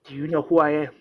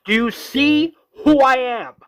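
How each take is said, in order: First: Restrained first demand; mild mock yell, held back; retold scream. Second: High, loud acted demand; full-voiced retold scream. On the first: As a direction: open the confrontation before the full shout. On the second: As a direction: yell it in a desperate confrontation. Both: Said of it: "Rick is screaming".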